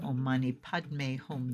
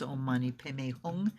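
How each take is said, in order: First: The mantra is pronounced with Sanskrit sounds. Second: The mantra is pronounced with Tibetan sounds. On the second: "in the Tibetan way before"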